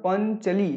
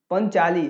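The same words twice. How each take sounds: First: पंचली said with a short a after च, pən-chə-lee; the mistaken पंचली, short च vowel; wrong short vowel. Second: पंचाली said with a long aa after च, pən-chaa-lee; the right पंचाली, long चा vowel; correct long vowel. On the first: Teacher showing students the wrong spelling, short vowel. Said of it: "अब पंचाली होता मतलब पंचली". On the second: Teacher giving students the right form, long vowel. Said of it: "अब पंचाली होता मतलब". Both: Shown as a demonstration.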